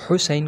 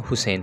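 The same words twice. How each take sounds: First: हुसैन with a plain breathy h; Urdu soft h. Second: हुसैन with a plain English h sound; the wrong हुसैन, a light h; wrong soft h. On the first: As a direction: say हुसैन the easy Urdu way, light h. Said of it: "हुसैन को हम क्या पढ़ते हैं". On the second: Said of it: "जबकि ये wrong है". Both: Shown as a demonstration.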